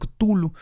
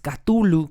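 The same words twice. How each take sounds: First: No vowel is added after the first consonant. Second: An extra a vowel follows the first consonant. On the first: The speaker calls it right. "A mí me gusta llamarlo Cthulhu" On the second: The speaker calls it wrong. "no como los españoles Cthulhu, que agregan una A que no existe"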